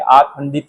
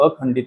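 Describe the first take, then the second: First: The first vowel is long, aa. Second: The first vowel is short, a. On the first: The speaker calls it wrong. "आखंडित हे म्हणणं चुकीचं आहे" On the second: The speaker calls it right. "अखंडित आपण म्हणायला पाहिजे"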